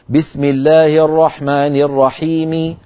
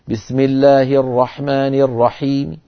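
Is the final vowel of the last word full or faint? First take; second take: full; faint. First: The last word ends with a full, clear vowel. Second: The last word ends with a faint, lowered vowel. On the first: This is the original way of pausing. "أن الأصل أن يقف الإنسان بالحركة الكاملة" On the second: This is how speakers paused by the time of revelation. "الرحيم كسرة لكنها منخفضة الصوت"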